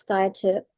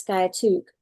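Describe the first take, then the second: First: The name ends with a 'tip' sound. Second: The name ends with a 'took' sound. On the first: "half of Oklahoma says sky tip" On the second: "the other half says sky took"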